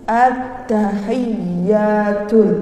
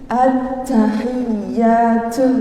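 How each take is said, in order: First: The t is released with a slight hiss. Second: The t is released with a strong hiss. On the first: The speaker calls it right. "tidak terlalu banyak desisannya" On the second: The speaker calls it wrong. "itu terlalu banyak desisan"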